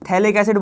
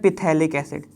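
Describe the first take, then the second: First: The word starts without a p sound. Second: The word starts with a p sound. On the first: The speaker calls it right. "उसका पी silent है" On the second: The speaker calls it wrong. "कई लोग बोलते हैं पिथैलिक acid, वो गलत बोलते हैं"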